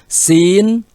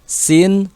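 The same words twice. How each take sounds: First: The letter names are said slowly. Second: The letter names are said quickly. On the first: "kita ucapkan dulu perlahan" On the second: "sekarang kita ulang lagi tapi cepat ya"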